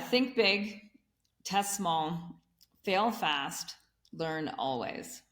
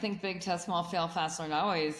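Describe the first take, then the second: First: It is said more slowly and deliberately. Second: It is said at normal conversational speed.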